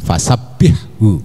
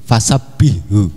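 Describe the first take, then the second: First: The h sound is pronounced clearly and lightly. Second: The h sound is merged into the next sound. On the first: The speaker calls it right. "jelas haknya ya, harus ditampakkan ada tipisnya haknya resik" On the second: The speaker calls it wrong. "Jadi haknya ini didghamkan ke hak. Ini salah ya, keliru"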